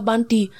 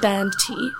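First: It is said with a Punjabi or Indian accent. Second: It is said carefully, with every sound over-enunciated. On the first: "as you would if you had a Punjabi or Indian accent" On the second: "trying really hard not to do the accent"

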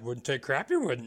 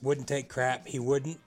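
First: It is said in a Yoda impression. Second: It is said in his normal voice.

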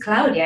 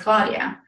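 First: The name is said with an Italian pronunciation. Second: The name is said with an English pronunciation. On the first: The speaker is owning the name's original form. The speaker calls it right. "I need to own the Italian pronunciation" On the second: The speaker is adapting the name to English listeners. The speaker calls it wrong. "for many years, I would say"

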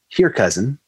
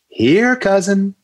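First: It is said in a plain, ordinary way. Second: It is said as if calling a dog.

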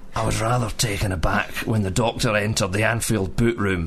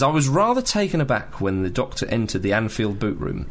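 First: It is read in a Scottish accent. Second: It is read in the speaker's normal accent.

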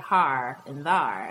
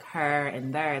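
First: The words have an open 'ah' vowel. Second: The words have their usual 'er' and 'air' vowels. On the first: "they say har and thar" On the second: "instead of saying, like, her and there"

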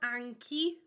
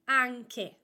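First: The word ends with an i vowel. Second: The word ends with a closed e vowel. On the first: The speaker calls it wrong. "So it's not anchi" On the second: The speaker calls it right. "it is always anche"

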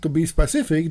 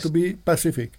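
First: The last word begins with an sp sound. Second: The last word begins with a p sound. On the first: The speaker calls it right. "instead of saying to be specific" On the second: The speaker calls it wrong. "they say to be pacific"

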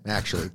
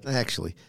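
First: The word is said plainly, without emphasis. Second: The word is said with strong emphasis.

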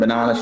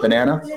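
First: Banana is said with an Australian accent. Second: Banana is said with an American accent. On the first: "instead of saying banana" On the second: "she says banana"

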